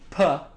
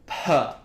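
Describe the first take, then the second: First: The p has a clear puff of breath. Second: The p has a long, heavy puff of breath. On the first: "I was thinking about aspiration" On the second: "So double aspiration"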